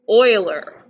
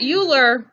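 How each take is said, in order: First: The name is pronounced the non-American way. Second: The name is pronounced the American way. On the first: The speaker calls it right. "Clearly not an American name" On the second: The speaker calls it wrong. "Not Euler. No, no. Don't say it like an American"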